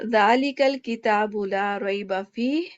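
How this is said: It stops after fihi, then continues. "फीह पे रुक गए, फिर आगे हुदल लिल मुत्तकीन नॉन स्टॉप पढ़ा"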